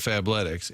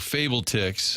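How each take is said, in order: First: It begins like fab, with a short a. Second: It begins like the word fable, long a. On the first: The speaker calls it right. "instead of Fabletics" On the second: The speaker calls it wrong. "I meant like in the mispronouncing game. If you go Fable-Tix"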